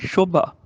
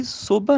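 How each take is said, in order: First: ਸ਼ੋਭਾ with an initial sh; sh sound. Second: ਸੋਭਾ with a plain s; wrong s sound. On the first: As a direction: say ਸ਼ੋਭਾ as "sho-bha". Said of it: "ਸੱਸੇ ਪੈਰ ਬਿੰਦੀ". (ਸ਼ੋਭਾ, ਪੈਰ ਬਿੰਦੀ ਵਾਲੇ ਸ਼ ਨਾਲ) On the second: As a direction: say ਸੋਭਾ as "so-bha". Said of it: "ਸੋਭਾ ਨਹੀਂ". (ਸੋਭਾ, ਸਾਦੇ ਸੱਸੇ ਨਾਲ) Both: Shown as a demonstration.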